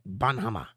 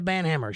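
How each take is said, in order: First: The name is said with German pronunciation. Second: The name is said with English pronunciation.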